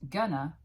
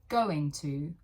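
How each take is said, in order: First: It is said as one blended word. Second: It is said as two full, separate words. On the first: "it becomes one word again. We blend the sounds" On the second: "Textbooks teach going to"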